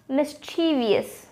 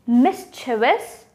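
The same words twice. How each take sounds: First: "mischievous" as mis-CHEE-vee-us, slowly; four-syllable mispronunciation. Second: "mischievous" as MIS-chuh-vus, slowly, rising; three-syllable pronunciation. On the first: Teacher offering viewers the second option, four-syllable mispronunciation. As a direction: add an extra "ee" to "mischievous", stressing CHEE. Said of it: "We don't need to add the fourth syllable". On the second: Teacher offering viewers the first option, three-syllable pronunciation. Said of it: "Is it mischievous or mischievous". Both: Shown as a demonstration.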